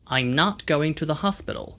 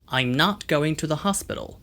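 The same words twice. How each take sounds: First: An American accent, with open 'ah' vowels. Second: The same.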